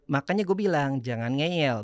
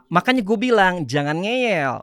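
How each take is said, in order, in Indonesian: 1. Diucapkan dengan datar, tanpa ekspresi. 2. Diucapkan dengan intonasi yang hidup dan ekspresif. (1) "flat, datar, mukanya nggak ada ekspresi" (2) "intonasi nada ekspresi berbeda"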